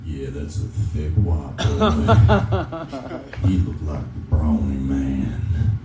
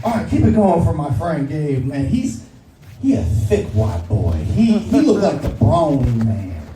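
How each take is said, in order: First: Put-on much lower, very slow southern accent with a laugh in it; creepy southern accent, low and slow. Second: Ashima Franklin impression. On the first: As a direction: leer it out slowly like a creepy southern guy. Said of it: "a guy with a southern accent just being like". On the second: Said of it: "she always goes like".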